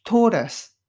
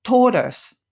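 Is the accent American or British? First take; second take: American; American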